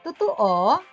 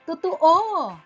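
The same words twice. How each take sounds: First: It is said in a doubtful, questioning tone. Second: It is said in a certain, assured tone. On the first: The speaker doubts that it is true. "katamtaman hanggang pababang tono na nagpapahayag ng pagdududa" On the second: The speaker is sure that it is true. "katamtaman hanggang pababang tono na nagpapahiwatig ng kasiguraduhan"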